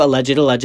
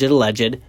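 First: Alleged, alleged leaned on, falling at the end; stress on alleged. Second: Alleged stressed and rising at the end. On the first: Podcaster stressing a word to hedge a rumor, emphatic. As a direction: hit alleged hard and let it drop. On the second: Podcaster hedging a rumor to listeners, stressed rising. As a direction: press alleged and lift it like a warning. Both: Shown as a demonstration. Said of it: "emphasis on that word".

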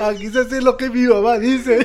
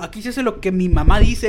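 First: Higher, louder, laughing through the line; laughing mock quote. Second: Said in the usual way. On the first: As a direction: finish the teacher's line while laughing. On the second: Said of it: "dijo el maestro acá".

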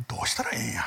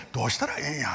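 First: God's lament in hushed, whispered Osaka dialect. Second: Voiced, lightly done Osaka-dialect lament. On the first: Pretend. Preacher voicing God at a loss, whispered Osaka dialect. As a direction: breathe it out in Osaka dialect like a sigh of despair. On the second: Preacher repeating God's helpless question, spoken Osaka dialect. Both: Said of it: "大阪弁で言うと".

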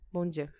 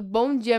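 First: Low, soft, joyless good morning; unsmiling greeting. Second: Said in the usual way. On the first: Retold or imitated. Replying to a disliked coworker, unsmiling greeting. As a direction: greet them without a trace of a smile, low and quiet. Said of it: "meu sorriso não tem sorriso". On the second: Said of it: "Vem falar comigo".

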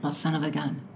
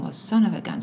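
First: Low, quiet, offhand catchphrase; imitating boyfriend. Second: Lightly mimicked catchphrase, leaning on SON; imitating dad's tone. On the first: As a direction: quote the boyfriend softly and low. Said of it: "boyfriend said". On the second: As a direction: quote dad's certain tone with falling end. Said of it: "it's in a certain tone".

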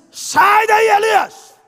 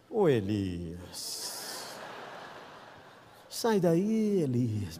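First: Thundering preacher shout, much higher and louder; full-force pulpit yell; booming shouted call. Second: Slow, low, soft drawn-out call; tender fatherly call; gentle tender call. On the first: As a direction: yell the name across the cave mouth. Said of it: "Deus não falou assim com Elias". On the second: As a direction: coax him out of the cave gently. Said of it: "Lembrei do conselho do carro". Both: Retold or imitated.

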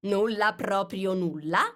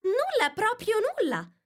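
First: Insisting king. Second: "Nulla, proprio nulla" high with firm falling stress on "nulla"; Alice reaffirming "nulla" high and flat-out; firm repetition. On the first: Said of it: "insistette il re". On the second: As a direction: insist on it, stamping "nulla". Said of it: "ribadì Alice". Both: Acted.

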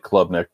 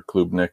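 First: Klubnik in the first of two pronunciations. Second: Klubnik with its alternative pronunciation. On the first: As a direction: say Klubnik one way, before offering an alternative. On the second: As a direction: offer Klubnik pronounced the other way, unsure which is correct. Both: Shown as a demonstration. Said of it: "however you pronounce it".

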